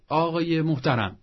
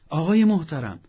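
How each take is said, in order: First: Said in the usual way. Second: آقای محترم said louder, with a falling stress on آقای; emphatic repeat. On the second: Shown as a demonstration. Counsellor urging listeners to say آقای محترم, emphatic. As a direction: lean into آقای محترم, loud and firm. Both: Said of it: "حالا یه مدتی تمرین کن، بگو".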